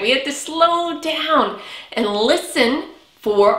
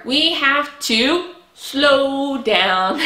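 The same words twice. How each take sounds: First: Said in the usual way. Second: Very slow, drawn-out words. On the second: Shown as a demonstration. Teacher showing children how to slow down, slowly. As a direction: stretch each word out slowly.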